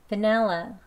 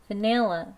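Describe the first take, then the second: First: "vanilla" with an e in the middle, "va-NEL-la"; e-vowel version. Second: "vanilla" with a clear i in the middle, "va-NIL-la"; i-vowel version. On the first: Teacher contrasting two "vanilla" vowels, e version next. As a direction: say "vanilla" with the e sound. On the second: Teacher contrasting two "vanilla" vowels, i version first. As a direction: say "vanilla" with the i sound. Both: Shown as a demonstration. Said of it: "한 번씩 해볼게요".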